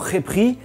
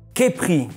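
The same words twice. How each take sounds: First: The first sound is a harsh, throaty rasp. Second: The first sound is a plain, soft k.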